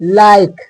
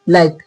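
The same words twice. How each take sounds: First: The vowel is drawn out longer. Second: The vowel is short and clipped. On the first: The speaker calls it right. "थोड़ा लंबा खींच के" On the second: The speaker calls it wrong. "लोग कहते हैं लाइक, लाइक नहीं"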